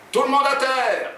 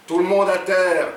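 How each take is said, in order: First: Demonstrated robber's cry. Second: Firm, raised robber's order; repeated command. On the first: Acted. Jean shows Oumar what to yell, crying out. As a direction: call it out high, like a hold-up. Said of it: "et tu cries". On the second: A narrator's reading. Jean repeats his friend's order to customers, commanding. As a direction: call the order out clearly, higher and louder. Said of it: "Il a dit".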